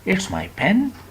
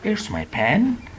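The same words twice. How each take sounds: The two takes are said the same way.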